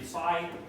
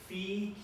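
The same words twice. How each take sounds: First: The vowel does not sound like fee. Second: The vowel sounds like fee. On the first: This is how sororities say it. The speaker calls it wrong. "in sororities and things, you might say" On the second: This is the Koine Greek pronunciation. The speaker calls it right. "it's Phi, Key, Psi for Greek, Koine"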